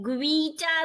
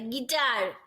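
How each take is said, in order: First: A w sound follows the g. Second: No w sound follows the g. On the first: The speaker calls it wrong. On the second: The speaker calls it right.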